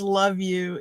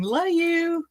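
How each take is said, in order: First: Said in the usual way. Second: Higher, sweet Southern drawl on "Love you"; imitating a friend's Southern drawl, pitched up; Southern drawl imitation. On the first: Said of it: "the way she says". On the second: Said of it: "in her Southern drawl".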